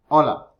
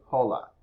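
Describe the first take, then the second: First: The h at the start is silent. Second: The h at the start is pronounced. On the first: The speaker calls it right. "You say hola" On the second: The speaker calls it wrong. "Remember the letter H is silent. You don't say hola"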